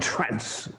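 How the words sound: The word is said in an American-style accent. The speaker calls it wrong. "as they do in America, Scotland, and Ireland"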